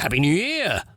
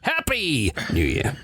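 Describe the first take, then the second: First: The stress falls on the word year. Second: The stress falls on the word happy. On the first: "I think we put the emphasis on the year" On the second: "there must be a country that puts the emphasis on the happy"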